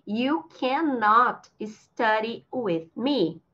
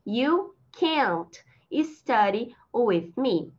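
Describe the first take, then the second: First: Slow model sentence, "cannot" in two full syllables; teacher's slow, fully spoken "cannot"; uncontracted CANNOT. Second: Very slow, "can't" as one drawn-out syllable; slow teacher's model of "can't"; contracted CAN'T. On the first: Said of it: "posso usar esse cannot contraído". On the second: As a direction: stretch "can't", then pause. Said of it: "Usando a contração, fica". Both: Shown as a demonstration.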